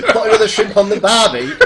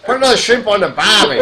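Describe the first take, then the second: First: Laughing, hammed-up Australian accent; a laughing stab at an Australian accent, louder and higher; mock Australian accent. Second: A fake Australian accent, shouted high through laughter; hammed-up Australian accent. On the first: Asked to do the line, a laughing fake Australian accent. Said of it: "do what Garrett said". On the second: Retrying the Australian line, a bad loud Australian accent. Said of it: "I can't even do an Australian accent".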